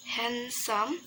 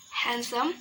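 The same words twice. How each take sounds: First: "handsome" split into two lengthened syllables; syllables drawn out. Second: Said in the usual way. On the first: Shown as a demonstration. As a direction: say "handsome" slowly for learners. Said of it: "the syllable is". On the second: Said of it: "the adjective".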